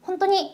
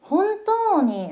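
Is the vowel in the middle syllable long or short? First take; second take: short; long. First: The middle vowel is cut short. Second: The middle vowel is drawn out long. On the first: The speaker calls it wrong. "이거 아니에요?" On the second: The speaker calls it right. "혼또니 라고 끌어줘요"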